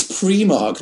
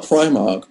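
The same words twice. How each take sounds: First: "Primark" said as PREE-mark; corrected pronunciation. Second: "Primark" said as PRY-mark; mispronunciation quoted. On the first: Reading a viewer's correction of the shop name, "Primark" pronounced PREE-mark. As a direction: say "Primark" with a long ee in the first syllable. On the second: Repeating the shop name as he had said it, "Primark" pronounced PRY-mark. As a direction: say "Primark" with the first syllable rhyming with "pry". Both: Retold or imitated. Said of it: "Sorry if I mispronounced Primark".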